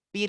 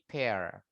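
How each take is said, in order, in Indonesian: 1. Diucapkan seperti kata bahasa Indonesia pir. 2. Diucapkan dengan bunyi vokal bahasa Inggris. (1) "Bacanya bukan pir ya" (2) "tapi pear"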